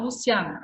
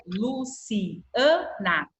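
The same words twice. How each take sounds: First: Said in the usual way. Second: "Luciana" slowly as Lu-ci-a-na; separated syllables. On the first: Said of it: "eu não falo Luciana". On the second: Shown as a demonstration. Teacher showing the A separates in "Luciana", syllable by syllable. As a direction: break "Luciana" apart, the A standing on its own. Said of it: "o A fica separado".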